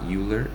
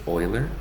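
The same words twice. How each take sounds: First: The name is said the way it looks written. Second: The name is said unlike its written form. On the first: The speaker calls it wrong. "even though it looks like Euler, but it's not Euler" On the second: The speaker calls it right. "his name is pronounced like Euler"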